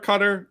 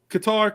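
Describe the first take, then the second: First: The name sounds like the word 'cutter'. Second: The name does not sound like 'cutter'. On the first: "I'm gonna say Cutter" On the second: "I went with Qatar, and then I stopped that"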